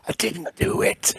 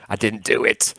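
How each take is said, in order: First: Slow, high, softer whisper; drawn-out whispered regret; mock-anguished whisper. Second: Said in the usual way. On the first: Real, not acted. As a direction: whisper it like a comic lament. Repeats the regret for comic effect.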